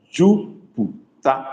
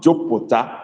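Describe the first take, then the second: First: Very slow Jupiter with a close u; correct vowels. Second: Jupiter with the open o vowel; wrong version. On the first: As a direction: stretch out Jupiter carefully, u not o. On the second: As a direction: Jupiter said like jopota. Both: Shown as a demonstration. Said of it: "not Jupiter, but Jupiter".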